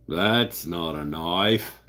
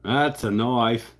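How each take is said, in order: First: Slow, half-hearted Australian Crocodile Dundee line; a weak stab at an Australian drawl; Aussie accent. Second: Louder, slow Australian Crocodile Dundee delivery; Aussie accent. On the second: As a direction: punch it out in a mock Australian accent. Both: Retold or imitated. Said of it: "I can't really do the Aussie accent".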